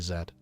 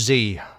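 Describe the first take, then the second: First: The letter is said with a non-American pronunciation. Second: The letter is said with an American pronunciation. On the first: "But I would say Z" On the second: "Americans would say"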